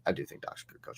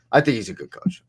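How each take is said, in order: First: Whisper. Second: Said in the usual way. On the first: Real, not acted. Repeating the claim, whispered.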